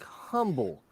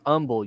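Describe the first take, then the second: First: The word begins with an H sound. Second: The word begins without an H sound. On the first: The speaker calls it wrong. "it's spelled like humble" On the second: The speaker calls it right. "you do not pronounce the H"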